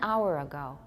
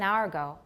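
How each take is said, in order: First: Hour is said slowly with two syllables. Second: Hour is said quickly, close to one syllable. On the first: "I have two" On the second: "If I say it fast"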